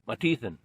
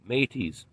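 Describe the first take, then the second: First: The name is said with a final 'than' syllable. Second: The name is said as two short syllables. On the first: The speaker calls it right. "It says Matithan" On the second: The speaker calls it wrong. "I mispronounced the name"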